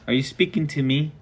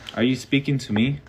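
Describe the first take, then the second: First: It is said in a high falsetto. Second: It is said in a normal voice.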